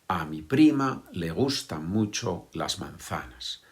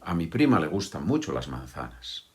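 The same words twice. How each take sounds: First: The words are said separately, one by one. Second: The words flow together, linked at normal speed. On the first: The speaker calls it wrong. "Nadie dice eso como yo lo he dicho ahora" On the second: The speaker calls it right. "Que unimos las palabras"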